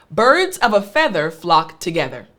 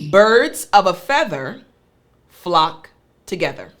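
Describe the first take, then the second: First: The sentence is spoken quickly. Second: The sentence is spoken slowly. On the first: "Now a little bit faster" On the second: "I'll say it slower"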